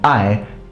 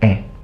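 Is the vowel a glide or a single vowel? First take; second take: glide; single vowel. First: The vowel glides between two vowel sounds. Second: The vowel is one plain eh sound. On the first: Educated speakers used this form. "Literate and educated people will still speak the good Latin" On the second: Country people used this form. "people started simplifying I to e"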